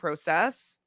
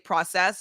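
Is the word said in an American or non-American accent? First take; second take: non-American; American. First: The word is said in a non-American accent. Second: The word is said in an American accent. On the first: The speaker calls it wrong. "not process" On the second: The speaker calls it right. "make myself say process"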